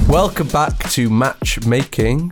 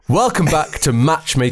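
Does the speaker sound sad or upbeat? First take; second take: sad; upbeat. First: The voice sounds sad and low in energy. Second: The voice sounds peppy and high in energy. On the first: The speaker calls it wrong. "you sound so sad doing this intro" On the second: The speaker calls it right. "I need some pep"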